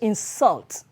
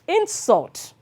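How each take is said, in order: First: The stress is on the second syllable. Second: The stress is on the first syllable. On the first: It names an action. "to insult is an action" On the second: It names a thing. "Insult is a thing"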